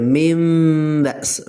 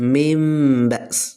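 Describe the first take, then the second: No difference in how they are said.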